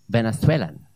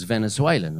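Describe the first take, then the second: First: Lisped Castilian-style Venethwelan; Spanish accent. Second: Said in the usual way. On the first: Retold or imitated. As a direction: imitate a Welshman affecting a Spanish accent. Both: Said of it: "That's how he'd say it".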